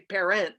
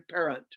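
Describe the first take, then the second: First: The second syllable has a full, clear vowel. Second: The second syllable has a reduced uh vowel. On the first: The speaker calls it wrong. "we don't say parent" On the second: The speaker calls it right. "we often say parent"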